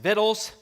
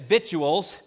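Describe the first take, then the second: First: The word sounds like the folksy hillbilly form. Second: The word does not sound like the folksy hillbilly form. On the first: The speaker calls it right. "Jethro had it right from the Beverly Hillbillies all along" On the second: The speaker calls it wrong. "And that is the wrong pronunciation"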